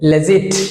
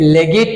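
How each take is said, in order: First: The g is said as a soft j. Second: The g is said as a hard g. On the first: The speaker calls it right. "No, লেজিট" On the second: The speaker calls it wrong. "এখানে লেগিট বলছি"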